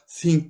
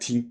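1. Kelime yumuşak bir th sesiyle başlıyor. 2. Kelime düz bir t sesiyle başlıyor. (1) "İngilizler, Amerikalılar think diyorlar ya" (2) "Biz Türkler think diyoruz ya arkadaşlar"

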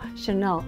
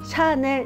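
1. 두 번째 음절은 세게, 첫 번째 음절은 약하게 발음합니다. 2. 두 음절을 같은 세기로 발음합니다. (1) "세게 주는 음절이 있냐면 뒤쪽에 있습니다" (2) "샤넬 이러면은 다 세게 준 거야"

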